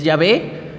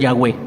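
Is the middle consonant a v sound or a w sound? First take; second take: v; w. First: The middle consonant is a v sound. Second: The middle consonant is a w sound. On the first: "con la letra A y la E" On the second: "la V se pronuncia como W"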